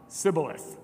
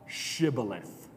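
First: Sibboleth with a plain S at the start; Sibboleth, unable to make the SH; Ephraimite mispronunciation. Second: Shibboleth slowly, with a long hushing SH; correcting pronunciation. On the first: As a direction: say Sibboleth with s in place of sh. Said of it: "could only pronounce the s sound". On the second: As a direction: say Shibboleth low and slow with a clear sh. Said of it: "not able to pronounce the sh sound". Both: Acted.

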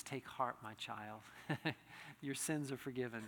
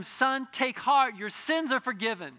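First: Soft, much quieter tender voice of Jesus, with a small laugh; gentle quoted blessing. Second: Loud, slow and higher proclamation of Jesus's words; proclaimed blessing. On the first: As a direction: hush it like a gentle blessing to a child. Jesus's words quoted softly. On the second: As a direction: ring out each word like a pronouncement. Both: Acted.

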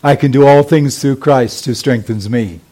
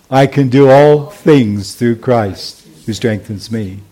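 First: Congregation recitation. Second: Slow recitation. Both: Shown as a demonstration. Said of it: "Say it with me".

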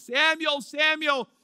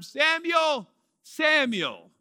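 First: Both names raised evenly; lightly voiced divine call. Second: God calling the name twice, raised; lightly voiced divine call. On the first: Shown as a demonstration. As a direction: call out twice, steady and raised. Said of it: "but he says it twice". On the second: A narrator's reading. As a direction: call him gently twice. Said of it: "Notice that he repeats the name".

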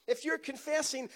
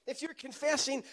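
Both takes have the same delivery.

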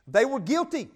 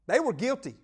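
First: "guilty" dito mais alto e com força; stress on guilty. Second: "They" destacado, resto mais baixo; stress on they. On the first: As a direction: bate na palavra "guilty" com queda no fim. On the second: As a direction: aponte com força o "They" inicial. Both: Shown as a demonstration.

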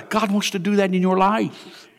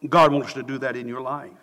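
First: Said in the usual way. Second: Softer, lower repeat of the line; an earnest murmured echo; quiet repeat. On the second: Real, not acted. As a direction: let it sink in, gently.

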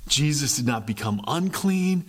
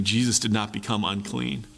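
First: Unclean lifted and leaned on; stress on unclean. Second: Said in the usual way. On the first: Shown as a demonstration. Preacher repeats the point, stressing unclean. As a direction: hit the word unclean on the repeat.

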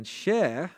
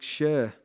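First: Said in the usual way. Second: "share" in a light Rainhill accent, vowel pulled toward "shur"; a hint of Rainhill accent on "share". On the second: Real, not acted. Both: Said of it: "that's my Rainhill accent again".

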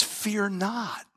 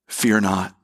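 First: Much softer, hushed "Fear not"; hushed reverence. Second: Low, gentle "Fear not"; gentle assurance. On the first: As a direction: breathe it gently as a comfort. Climax of contrast, hushed. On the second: Quiet repeat to congregation. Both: Acted.

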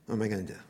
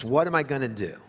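First: Softer, trailing off in despair; "What am I gonna do?" said softer, dying away; fretful, fading. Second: Said in the usual way. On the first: Shown as a demonstration. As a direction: let the worry sink into a hush. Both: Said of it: "we begin to fret and panic".

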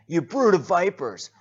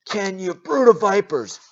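First: Much higher, much louder shout; preacher repeating John's insult, shout. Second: Much higher, much louder shout; preacher urging viewers at home, yell. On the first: Acted. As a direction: fling it out again. Another loud repetition. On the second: Shown as a demonstration. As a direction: yell it at the screen. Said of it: "you can yell it at me".

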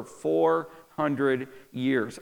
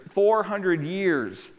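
First: Said in the usual way. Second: Four hundred years drawn out slowly, FOUR stressed; slow emphatic repeat. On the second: Acted. Preacher repeating to the congregation, slow and emphatic. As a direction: lean hard on FOUR and let each word land slowly.

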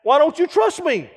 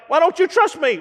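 First: Higher, whiny hurt question; mock offended. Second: Higher whiny hurt plea; wounded, pouty demand; mock offended. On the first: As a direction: play the wounded friend. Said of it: "just throw that out". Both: Friend demands trust, mock offended and higher.

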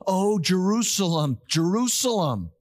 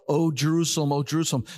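First: "Oh, Jerusalem, Jerusalem" cried out with passion, both names weighted; passionate lament. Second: Said in the usual way. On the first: Shown as a demonstration. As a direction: lean into "Jerusalem" like a heartfelt cry. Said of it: "There's a passion". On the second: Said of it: "that is an emphasis".

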